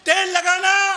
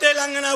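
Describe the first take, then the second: First: It is split into two words, tel lagana. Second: It is said as one word, Telangana. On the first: The speaker calls it wrong. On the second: The speaker calls it right.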